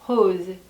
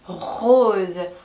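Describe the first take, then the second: First: The r is soft and light, like an h. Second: The r is a strong, scraping throat sound. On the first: The speaker calls it right. "가볍게 히읗 발음으로" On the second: The speaker calls it wrong. "이거를 굉장히 의식을 해서 rose, rose 이렇게 발음하는 사람 없습니다"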